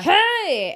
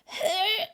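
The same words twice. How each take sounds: First: The voice is relaxed, letting the air flow. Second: The voice is squeezed and pressed out.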